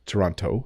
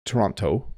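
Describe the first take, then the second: First: The second t is clearly pronounced. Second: The second t is clearly pronounced.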